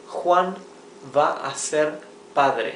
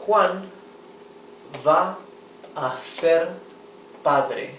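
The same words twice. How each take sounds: First: Said in the usual way. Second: Slow word-by-word reading. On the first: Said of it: "teacher repeats sentence at normal flow". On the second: Shown as a demonstration. Teacher reading a sentence to students, word by word. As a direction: read it out word by word for the class. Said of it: "teacher reads example slowly, word by word".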